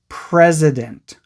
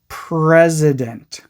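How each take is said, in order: Both takes have the same delivery.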